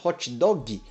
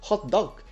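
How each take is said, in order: First: It is said with a Brazilian Portuguese accent. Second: It is said with a native English accent. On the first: The speaker is recognizably a Brazilian. "ele é brasileiro, olha a forma como ele fala" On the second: The speaker sounds like a native English speaker. "e não"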